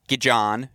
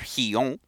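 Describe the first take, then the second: First: The name is said with an English pronunciation. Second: The name is said with a Spanish pronunciation. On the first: The speaker calls it wrong. "not Gijon" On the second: The speaker calls it right. "Hopefully you all appreciate my pronunciation there"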